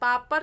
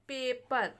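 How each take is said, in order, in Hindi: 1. पहला स्वर लंबा 'ah' है। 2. पहला स्वर 'ay' की आवाज़ है। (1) "पापर नहीं पढ़ेंगे" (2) "इसको हम पढ़ेंगे पेपर"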